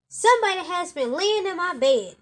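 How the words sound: It is said in a big, deep voice.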